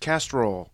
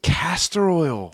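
First: It is squeezed into two syllables. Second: It is said in three full syllables.

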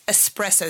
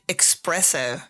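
First: The word begins with an 'es' sound. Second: The word begins with an 'ex' sound. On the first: The speaker calls it right. "it's espresso" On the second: The speaker calls it wrong. "that's wrong"

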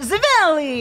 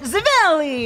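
First: It is said with an exaggerated fake Italian accent. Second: The same.

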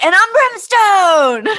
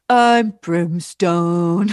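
First: It is said in an upbeat, lively tone. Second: It is said in a gloomy, grumpy tone.

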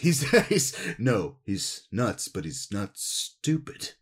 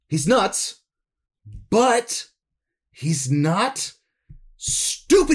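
First: The line is delivered in a mildly serious tone. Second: The line is delivered in an intensely serious tone.

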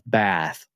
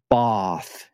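First: The word is said in an American-style accent. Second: The word is said in a posh southern English accent.

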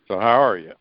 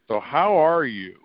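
First: It sounds casual, like a throwaway greeting. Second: It sounds sincerely interested in the answer.

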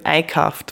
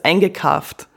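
First: The ge syllable is left out. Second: The ge syllable is fully pronounced. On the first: The speaker is from the central Bavarian dialect area. "das GE wird eben weggelassen" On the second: The speaker is from the southern Bavarian dialect area. "dass man die Silben voll ausspricht"

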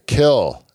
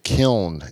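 First: The word ends without an n sound. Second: The word ends with an n sound. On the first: The speaker calls it right. "you say kill instead of kiln" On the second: The speaker calls it wrong. "it's not the way you say it"

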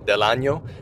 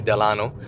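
First: The middle consonant is a ny sound. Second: The middle consonant is a plain n sound. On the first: It means of the year. The speaker calls it right. "with the Inye sound" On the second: It gives the word a rude meaning. The speaker calls it wrong. "don't say del ano"

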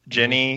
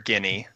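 First: The name begins with a soft j sound. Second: The name begins with a hard g sound. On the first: This is how the films say it. The speaker calls it right. "Ron's sister, Ginny" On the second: This is a misreading from the printed name. The speaker calls it wrong. "Until the films came out, I called her Guinea"

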